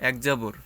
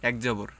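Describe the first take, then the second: The two takes are said the same way.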